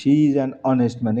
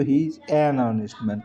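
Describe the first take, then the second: First: Slow dictation. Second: Said in the usual way. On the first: Shown as a demonstration. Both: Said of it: "কারণ এটার উচ্চারণটা honest-এর".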